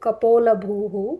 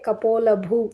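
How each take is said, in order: First: The final h is followed by an echoed vowel. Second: The word stops without any echoed final vowel. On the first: "So you can completely say bhuhu" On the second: "Some parts they'll say kapola bhu"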